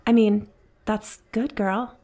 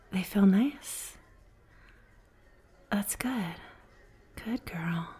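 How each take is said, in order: First: Said in the usual way. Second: Slow, soft whisper close to the ear; sultry whisper. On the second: Acted. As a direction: let the praise slip out seductively. Slips into flirting.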